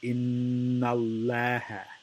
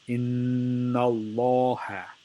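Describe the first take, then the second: First: The L is light and thin. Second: The L is heavy, with a full mouth. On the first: The speaker calls it wrong. "the wrong way to say it would be ... Laha makes it light" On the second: The speaker calls it right. "the right way to say it is"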